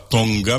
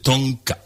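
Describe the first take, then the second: First: The middle consonant is a voiced g sound. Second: The middle consonant is a voiceless k sound. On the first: The speaker calls it wrong. "C'est pas Tonga" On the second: The speaker calls it right. "mais c'est Tonka"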